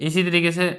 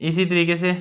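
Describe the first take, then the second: Both takes have the same delivery.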